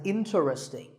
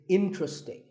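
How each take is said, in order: First: The word is said with four syllables. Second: The word is said with three syllables. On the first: The speaker calls it wrong. "mispronounced sometimes as interesting" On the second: The speaker calls it right. "there are only three syllables"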